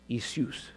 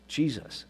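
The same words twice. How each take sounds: First: Jesus said as "ee-SOOS"; Jesus pronounced the Greek way, "ee-soos"; Greek form of Jesus. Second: Said in the usual way. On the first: Shown as a demonstration. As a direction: say Jesus with an opening ee and a soos ending. Steps through forms of the name.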